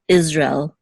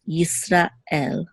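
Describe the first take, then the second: First: Israel run together the English way, "Izrel"; no break before the end of Israel; slurred together. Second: Slow Yisrael, parted before "el"; two separate words. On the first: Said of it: "we kind of slur it together". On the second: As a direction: say Yisrael the Hebrew way, Yisra, then El. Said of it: "as if it's two separate words". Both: Shown as a demonstration.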